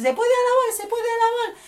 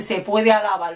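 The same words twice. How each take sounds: First: Much higher sing-song mock chant; high mocking chant of churchgoers; mimicking churchgoers. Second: Said in the usual way. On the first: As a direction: parody the pious refrain. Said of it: "Que mucha gente dice". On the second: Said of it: "mucha gente dice".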